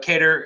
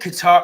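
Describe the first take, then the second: First: The name sounds like the word cater. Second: The name sounds like the country Qatar. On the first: The speaker calls it right. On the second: The speaker calls it wrong.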